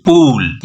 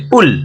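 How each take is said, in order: First: पूल said as pool, with a long oo; पूल as English pool, long stretched oo; long vowel pool. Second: पुल said as pull, with a short u as in put; पुल as English pull, short clipped u; short vowel pull. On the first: Teacher reads pool against pull, long vowel. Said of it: "P double ओ L". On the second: Teacher spells pull to students, short vowel. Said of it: "P यू double L". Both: Shown as a demonstration.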